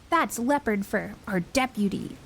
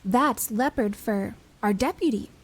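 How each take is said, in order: First: It is said in a growling, scornful voice. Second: It is said plainly, without a growl.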